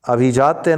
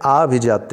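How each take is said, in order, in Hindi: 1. पहला स्वर ह्रस्व 'a' है। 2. पहला स्वर दीर्घ 'aa' है। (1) "नहीं होता है, गलत है" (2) "होता है"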